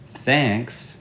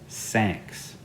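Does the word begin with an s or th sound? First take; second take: th; s. First: The word begins with a th sound. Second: The word begins with an s sound. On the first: The speaker calls it right. "instead of saying thanks" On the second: The speaker calls it wrong. "they'll say sanks"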